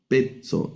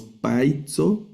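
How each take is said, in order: First: "pezzo" slowly, as "pet-so" with a pure E; correct E sound. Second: "paizo" slowly, with an open "ai" in "pait-so"; diphthong wrongly split. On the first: Teacher correcting the wrong reading, E in first syllable. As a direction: give "pezzo" a plain E, falling at the end. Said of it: "sino pezzo". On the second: Teacher showing how not to read it, "ai" sounded. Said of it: "pero no leemos paizo". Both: Shown as a demonstration.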